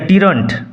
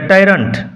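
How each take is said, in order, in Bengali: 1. প্রথম স্বরধ্বনিটি 'ee'-র মতো উচ্চারিত হয়। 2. প্রথম স্বরধ্বনিটি 'eye'-র মতো উচ্চারিত হয়। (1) "সরি" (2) "উচ্চারণ হবে টাইরান্ট"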